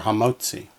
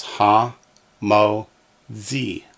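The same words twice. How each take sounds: First: Said in the usual way. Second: "ha, mo, zi" in three separate beats; syllable by syllable. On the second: Shown as a demonstration. Teacher pronouncing for students, "ha, mo, zi" one syllable at a time. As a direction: space out "ha, mo, zi" with pauses. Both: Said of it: "we have the syllables".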